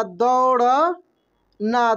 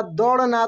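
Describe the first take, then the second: First: दौड़ना stretched very slowly, the au held; drawn-out spelling-out. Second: Said in the usual way. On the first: Shown as a demonstration. Teacher to pupils, spelling out the word slowly. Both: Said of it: "ठीक ना?".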